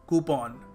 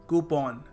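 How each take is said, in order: Both takes have the same delivery.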